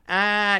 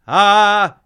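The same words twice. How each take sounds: First: The voice sounds tight and held back. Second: The voice sounds open and well supported. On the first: The speaker calls it wrong. "so instead of going like" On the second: The speaker calls it right. "you're like, ... you hear the difference?"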